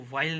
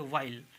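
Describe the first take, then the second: First: व्हाइल with an H in the opening, "hwile"; sounded H. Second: व्हाइल with a simple W, "wile"; silent H. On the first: Teacher showing the mistake, व्हाइल with H. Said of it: "इसको व्हाइल नहीं कहेंगे". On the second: Teacher giving the correct form, व्हाइल with silent H. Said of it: "इसको कहेंगे व्हाइल". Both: Shown as a demonstration.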